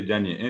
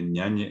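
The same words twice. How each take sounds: First: Ñañe said with an oral y sound at the start, like yañe; ñañe mispronounced as yañe; wrong pronunciation. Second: Ñañe said with a nasal ñ at the start and a long final e; ñañe with a full nasal ñ; correct pronunciation. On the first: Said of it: "no se dice ñañe". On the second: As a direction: say ñañe properly, with a clear nasal ñ. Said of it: "se dice ñañe". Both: Shown as a demonstration.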